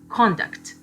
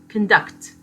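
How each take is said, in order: First: The stress is on the first syllable. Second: The stress is on the second syllable. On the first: It is a noun. "This is a noun. We have the stress on the first syllable" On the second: It is a verb. "This is a verb. The stress is placed on the second syllable"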